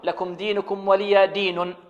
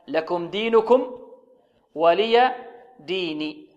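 First: The final n carries a u vowel. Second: The final n carries an i vowel. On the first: The speaker calls it wrong. "ربما يظن البعض أنها ربما تكون مرفوعة" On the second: The speaker calls it right. "فالنون هنا مكسورة وليست مضمومة"

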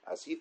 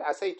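First: The vowel after the s is i. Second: The vowel after the s is a. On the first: This departs from the regular rule. "ما تقول إيش؟" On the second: This follows the regular rule. "الأصل أن تقول عسيت"

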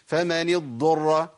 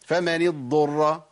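The two takes are said the same way.

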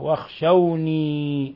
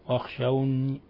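First: The word ends in a long ee sound. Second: The word ends in n plus a faint i. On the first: "بالياء الخالصة" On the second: "هكذا جزء من الكسرة"

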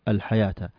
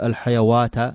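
First: The word is said with a long 'a'. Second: The word is said with a 'w' sound. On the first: The speaker calls it right. "انطق هذا الأعلى الحياة" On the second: The speaker calls it wrong. "ما نقول الحيوات"

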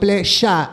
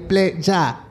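First: It is pronounced the Buenos Aires way. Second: It is pronounced a non-Buenos Aires way. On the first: The speaker calls it wrong. "Estás diciendo pleya ... te estás porteñando" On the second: The speaker calls it right. "y es pleya"

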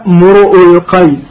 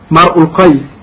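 First: The first word is said as mur'u. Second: The first word is said as mar'u. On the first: "بضم الميم والهمزة بغير ألف" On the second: "بفتح الميم وضم الهمزة"

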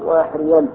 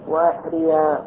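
First: The word ends in an 'n' sound. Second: The word ends in a long 'a' vowel. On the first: This is the underlying original form. "وإلا الأصل" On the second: This is the form used when pausing. "في الوقف أبدلت النون هذه نون التوكيد الخفيفة أبدلتها ألفا فقلت"

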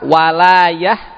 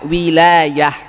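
First: The first vowel is an 'a' sound. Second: The first vowel is an 'i' sound. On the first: Support and help. "Bisa dibaca fathah walayah" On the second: Authority over something. "Bisa dikasrah wawunya wilayah"

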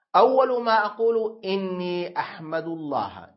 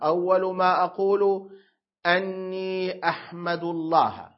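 First: The word before 'ahmadu' begins with an i vowel. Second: The word before 'ahmadu' begins with an a vowel. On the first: The sentence is quoted speech, the content of what is said. "إذا كسرت الهمزة صارت محكية" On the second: The clause is a verbal noun predicate: my first words are praise of God. "لو قلت بفتح الهمزة"

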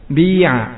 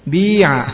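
First: A brief u-like sound comes before the word. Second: The vowel is pure with no u-like sound. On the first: "Mendhamma dulu bibirnya sebelum diucapkan fa-nya" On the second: "enggak ada suara u-nya berarti ya"

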